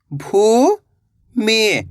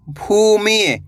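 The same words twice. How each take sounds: First: भू, long pause, मि; भूमि split slowly, rising then falling; syllable by syllable. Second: भूमि joined, long ऊ; blended word. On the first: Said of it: "एक अक्षर का उच्चारण करना है". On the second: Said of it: "तो मिलके बन जाएगा". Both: Shown as a demonstration.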